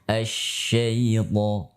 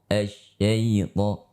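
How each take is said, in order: First: The sh sound is spread out and prolonged. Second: The sh sound is brief, without spreading. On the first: The speaker calls it right. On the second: The speaker calls it wrong. "ternyata tafasyinya kurang"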